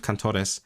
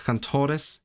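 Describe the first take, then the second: First: "cantores" sped through, syllables run together; syllables rushed a bit. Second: "cantores" spaced out so each syllable can sound; more space to sound. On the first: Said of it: "speeding through the syllables a bit". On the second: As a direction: give the syllables of "cantores" room, raised slightly in pitch. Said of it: "I should give it more space". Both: Shown as a demonstration.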